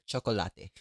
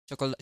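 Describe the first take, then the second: First: Every sound of the word is clearly pronounced. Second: The word is said quickly with reduced sounds.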